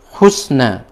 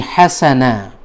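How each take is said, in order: First: The first vowel is u; the s has no vowel. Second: The first vowel is a; the s takes a. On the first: "huruf ha-nya dhammah, sinnya kas, uh, sukun, kemudian nunnya fathah" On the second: "ha-nya fathah, sinnya fathah, begitu pula dengan nunnya"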